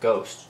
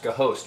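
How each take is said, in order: First: The h is silent after the g. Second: The h is sounded after the g. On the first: This is how people say it now. "instead of Ghost" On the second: This is how it was once pronounced. "once upon a time, Gahost was pronounced Gahost"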